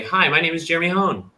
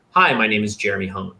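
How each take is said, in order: First: Unsure rising intro; upward inflection. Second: Confident downward inflection; falling, certain intro. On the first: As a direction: pitch higher, no final fall on "Hone". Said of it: "there's no conclusion to it". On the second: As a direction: end "Hone" on a firm downward fall. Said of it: "downward inflection". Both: Shown as a demonstration.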